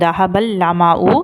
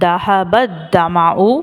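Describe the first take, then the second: First: The second word starts with an 'l' sound. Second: The second word starts with a 'dh' sound. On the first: "அப்படி இல்லை அப்படின்னா என்ன சொல்கிறோம்" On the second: "மஹரஜோடைய உச்சரிப்பில் இதை வந்து துவாத் அப்படின்னு சொல்லி நான் ப்ரொனவுன்ஸ் பண்ணேன்"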